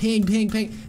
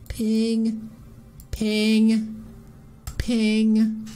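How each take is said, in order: First: The pings come quickly one after another. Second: The pings come slowly with gaps between.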